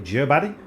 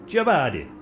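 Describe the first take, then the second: First: Said in the usual way. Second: Badly faked Italian accent on Giobadi; terrible Italian accent. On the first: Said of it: "I don't know". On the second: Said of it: "My terrible impression of an Italian accent".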